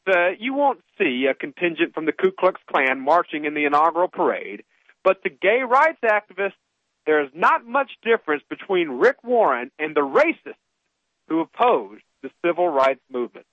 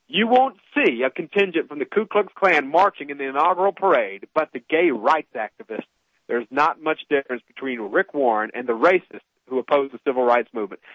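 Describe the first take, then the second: First: Said in the usual way. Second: Lower, deliberate reread for emphasis; pointed reread. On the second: Shown as a demonstration. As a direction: read it again lower so every word sinks in. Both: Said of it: "I'm gonna read that one more time".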